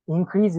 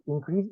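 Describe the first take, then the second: First: "Increase" stressed on the second syllable, in-CREASE; verb stress. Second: "increase" stressed on the first syllable, IN-crease; noun stress. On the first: Teacher showing the verb "Increase", stress on CREASE. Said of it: "Increase is a verb". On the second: Teacher showing the noun "increase", stress on IN. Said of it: "increase is a noun". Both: Shown as a demonstration.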